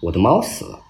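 It is said in a flat, casual tone.

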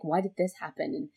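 It is said in a joyful tone.

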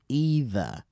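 The word is said with an American pronunciation. "and the Americans use either"

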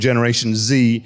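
The letter Z is said the American way, zee.

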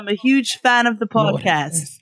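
It is said in a put-on British accent.

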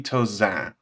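The name is said with French sounds. The speaker calls it right. "It's supposed to be Tauzin, but that's too much for most people"

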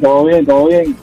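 It is said in a flat, bored voice.

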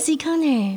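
It is said in a gentle, soft tone.

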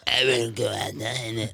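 The voice is a harsh, horrifying dog voice. "I'll make it a horrifying voice"

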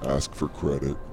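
It is said in a flat, bored tone.

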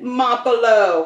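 The name is said in an Italian accent.

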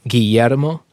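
The double L is soft, almost silent. This is how it sounds in Mexican Spanish. "double L is typically sort of mute for like Mexican Spanish"

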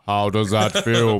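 The voice is made very deep.

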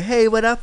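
It is said in a high, camp voice.

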